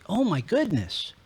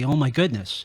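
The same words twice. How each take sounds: First: It sounds delighted and surprised. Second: It sounds dismayed and annoyed. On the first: Something pleasant has happened. "if I walk in on a surprise birthday party for myself" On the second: Something bad has happened. "if I walk out to my car and it has a flat"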